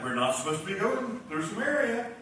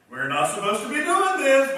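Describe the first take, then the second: First: Said in the usual way. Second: Louder and higher, leaning on "doing"; rising alarm. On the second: Retold or imitated. Disciples' worry rising in repeat.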